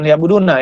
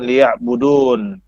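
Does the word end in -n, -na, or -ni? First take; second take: -na; -n. First: The word ends with a short -na syllable. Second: The word ends on a bare n sound. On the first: "bukan liya'buduna ya" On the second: "karena dia berhenti ... dibaca dengan liya'budun"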